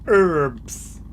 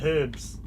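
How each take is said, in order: First: The word is said with an American pronunciation. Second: The word is said with a non-American pronunciation. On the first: The speaker picked up a partner's way of speaking. "I started saying words like herbs" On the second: This is how the speaker used to say it. "instead of herbs"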